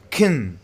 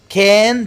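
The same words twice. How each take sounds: First: The word is said in a reduced, weak form. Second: The word is said in its full, strong form.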